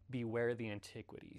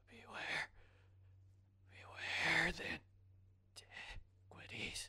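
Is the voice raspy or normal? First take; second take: normal; raspy. First: It is said in a normal speaking voice. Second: It is said in a raspy put-on voice.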